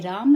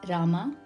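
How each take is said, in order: First: The name ends in a bare m sound. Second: The name ends in a full ma syllable. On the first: This is how Hindi speakers say it. "Hindi speakers would say Ram" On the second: This is how South Indian speakers say it. "South Indian speakers like me would say Rama"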